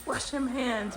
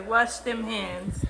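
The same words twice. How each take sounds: First: Said in the usual way. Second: Very slow, stretched words; drawn out slowly. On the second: Shown as a demonstration. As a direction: drag every word out. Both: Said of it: "wash them hands, boy".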